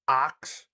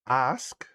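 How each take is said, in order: First: It ends with a k then s sound. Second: It ends with an s then k sound. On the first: The speaker calls it wrong. "Ax is how ninety-nine point nine percent of the population say it" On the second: The speaker calls it right. "Ask is how it should be pronounced"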